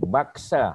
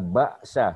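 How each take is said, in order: First: The middle consonant is a k sound. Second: The middle consonant is a glottal stop. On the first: The speaker calls it wrong. "bukan baksa ya. Itu dekat-dekat dengan bakso dah tu" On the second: The speaker calls it right. "Hamzah ya. Ba alif atas dia ada hamzah"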